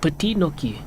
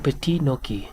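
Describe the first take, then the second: First: The final T of the first word is silent. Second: The final T of the first word is silent.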